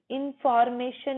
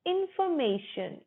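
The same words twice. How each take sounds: First: 'इन्फॉर्मेशन' with a full 'for', R sounded; wrong pronunciation. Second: 'इन्फॉर्मेशन' as in-fuh-MAY-shun; brisk, higher 'इन्फॉर्मेशन' without the R; silent R. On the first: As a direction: say 'इन्फॉर्मेशन' as in-FOR-may-shun, the mistaken way. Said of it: "इन्फॉर्मेशन नहीं बोलेंगे". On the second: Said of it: "र silent". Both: Shown as a demonstration.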